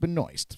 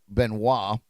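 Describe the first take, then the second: First: The name is pronounced in the family's manner. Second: The name is pronounced in the French manner. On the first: This is how the bearer's family says it. "her family and her uh, pronounce it Benoist" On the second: This is how French speakers would say it. "the French would pronounce it Benoit"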